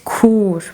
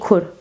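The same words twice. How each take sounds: First: The u vowel is long. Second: The u vowel is short. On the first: The speaker calls it right. "it is a long u. ... It is kur" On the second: The speaker calls it wrong. "You shouldn't say kur"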